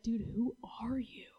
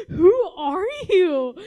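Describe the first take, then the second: First: Hushed, stunned question; whispered disbelief. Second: Louder, higher, slow laughing question; laughing disbelief. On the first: Friend stunned by someone's joy, whispered. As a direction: ask it under your breath. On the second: Friend amazed by someone's joy, laughing. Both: Retold or imitated.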